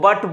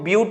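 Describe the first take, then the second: First: The vowel is a short uh sound. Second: The vowel is a yoo sound. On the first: The speaker calls it wrong. "बहुत सारे लोग इसको बट बोलता है" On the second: The speaker calls it right. "लेकिन इसको ब्यूट बोलना"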